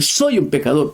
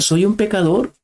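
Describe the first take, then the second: First: Said in the usual way. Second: Higher, mock shout of confession; imitated cry. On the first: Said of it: "gritando, llorando". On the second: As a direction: cry it out as a sinner on the floor. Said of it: "tirarse al suelo y gritar".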